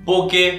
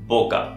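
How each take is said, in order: First: The word ends in an 'eh' vowel. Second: The word ends in an 'ah' vowel. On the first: The speaker calls it wrong. "बहुत ही अलग अलग टाइप से लोग इसको प्रोनाउंस करते हैं" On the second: The speaker calls it right. "जो इसका सही प्रोनाउंसिएशन है वो है पोका"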